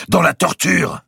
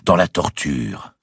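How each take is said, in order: First: High, loud cry; defiant retort. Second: Slow, drawn-out echoing repeat; deeper echo. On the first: Grand master answers his accuser, defiant retort. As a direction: fire it straight back. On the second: Cathedral vault repeats the grand master's words, deeper echo. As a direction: let it resound slowly, without shouting. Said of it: "plus profonde, au fond de la nef". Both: A narrator's reading.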